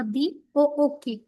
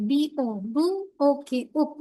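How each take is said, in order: First: "বি ও ও কে" spelled letter by letter as one word; "বি ও ও কে" in one unbroken spelling run; spelled together. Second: "বি ও, বু, ওকে, ওক" broken into two sounded chunks; wrong demo of book, "বু" and "ওক" said apart; split-up spelling. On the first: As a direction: keep both ও together in "বি ও ও কে". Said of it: "একসাথে বলি". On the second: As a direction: spell "বি ও" as বু, then "ওকে" as a separate ওক. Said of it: "এরকম করে উচ্চারণ করি". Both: Shown as a demonstration.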